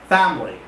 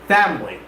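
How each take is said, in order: First: The word is said with two syllables. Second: The same.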